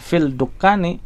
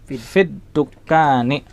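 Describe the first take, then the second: First: The L sound is pronounced before the D. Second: The L merges into a doubled D sound. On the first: The speaker calls it wrong. "bukan fil dukkani" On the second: The speaker calls it right. "Lamnya melebur ke huruf dal"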